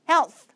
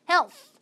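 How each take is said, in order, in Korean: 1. 이 단어는 th 소리로 끝나요. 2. 이 단어는 s 같은 소리로 끝나요. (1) "th 발음" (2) "health가 아니라"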